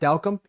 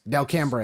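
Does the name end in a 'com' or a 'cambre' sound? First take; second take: com; cambre. First: The name ends with a short 'com' sound. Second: The name ends with a 'cambre' sound. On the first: This is how the family and locals say it. The speaker calls it right. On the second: This is how outsiders in the city say it. The speaker calls it wrong.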